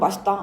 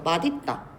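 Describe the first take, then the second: First: The s sound links directly into the next syllable. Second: The final consonant changes to d before linking. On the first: It is how people actually say it. "사람들은 그냥 계속 맛있다, ... 이렇게 발음을 하니까" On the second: It follows the sound rule strictly. "음절의 끝소리 규칙 적용돼서 바뀐 다음에 연음이 돼야 돼요. 그래서 맛있다 이렇게 발음을 하셔야"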